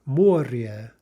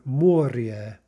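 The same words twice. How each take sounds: First: The word ends with a soft 'ryeh' sound. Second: The word ends with a soft 'ryeh' sound.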